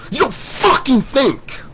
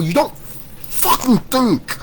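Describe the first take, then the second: First: High slow contempt, a little louder; angry rant. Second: High slow contempt; angry rant. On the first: Second take to doubters, slow louder scornful voice. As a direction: stretch it out again, scornful. Repeated insult. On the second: First take to doubters, slow scornful high voice. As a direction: stretch it out, scornful. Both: Real, not acted.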